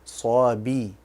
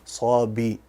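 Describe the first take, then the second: Both takes have the same delivery.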